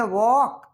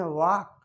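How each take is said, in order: First: वॉक with a long open "aw" vowel, held; one way of saying walk. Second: वॉक with a short flat "ah" vowel; other way of saying walk. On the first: Teacher shows one student's way, वॉक as "wawk". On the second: Teacher shows another student's way, वॉक as "wahk". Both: Shown as a demonstration. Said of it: "कुछ बोलते हैं वॉक".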